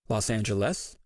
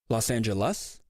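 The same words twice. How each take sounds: First: The final syllable sounds like 'less'. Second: The final syllable sounds like 'lus'. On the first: "end with a less" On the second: "or a lus"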